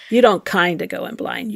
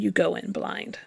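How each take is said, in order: First: Don't hit firmly, the rest even; stress on don't. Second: You said firmly, the line dropped soft; quiet, with weight on You; stress on you, softer. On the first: Correcting the interviewer, leaning on don't. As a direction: lean on don't to correct him. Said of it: "So you kinda go in blind?". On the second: Nun telling the interviewer, softly stressing You. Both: Shown as a demonstration.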